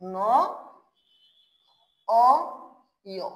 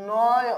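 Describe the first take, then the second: First: ন, অ, ইয় with long pauses between; fully separated syllables of ন অ ইয়; syllable-by-syllable model. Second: নয় joined up, vowels gliding; drawn-out model of নয়; linked pronunciation model. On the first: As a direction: dictate ন ... অ ... ইয় one sound at a time. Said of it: "কি উচ্চারণ হবে?". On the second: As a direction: say নয় as one linked word, no H. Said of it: "তাহলে উচ্চারণটা কি হবে?". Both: Shown as a demonstration.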